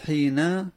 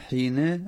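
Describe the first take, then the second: First: The final n carries an a-vowel. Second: The final n carries an i-vowel. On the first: The word is treated as indeclinable. "به فتح نون حين على البناء" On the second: The word is treated as declinable. "کسر على الاعراب"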